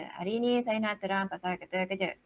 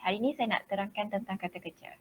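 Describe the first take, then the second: First: One flat tone on every word; monotone. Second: Said in the usual way. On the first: Shown as a demonstration. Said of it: "Satu tone je". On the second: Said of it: "Cakap macam biasa, santai".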